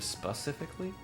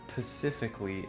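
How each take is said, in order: First: The word begins with an sp sound. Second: The word begins with a plain p sound. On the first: The speaker calls it right. "Instead of specifically?" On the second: The speaker calls it wrong. "People who say pacifically make me want to rage"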